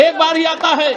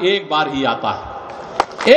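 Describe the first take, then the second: First: Raised, projected rally cry; ringing repeat. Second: Very low, slow, drawn-out line; low, solemn praise. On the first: Speaker praising the prime minister as a rare leader, raised and ringing. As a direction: hurl the praise out to the crowd. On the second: Speaker praising the prime minister as a rare leader, low and slow. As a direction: sink down slowly on the praise. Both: Real, not acted.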